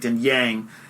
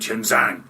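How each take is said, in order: First: It has southern y sounds, no z sound. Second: It has northern ch and z sounds. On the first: "in the south we say Tian Yang" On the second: "they go, oh, you mean Chen Zhang?"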